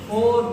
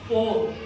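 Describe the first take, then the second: First: The final r is soft and barely heard. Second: The final r is strong and clearly rolled. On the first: The speaker calls it right. "जो रा है उस पे जोर कम दिया जाता है।" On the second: The speaker calls it wrong. "र र करके ना बोले"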